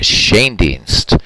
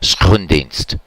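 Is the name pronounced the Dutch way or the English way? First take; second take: English; Dutch. First: The name is said with English pronunciation. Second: The name is said with Dutch pronunciation.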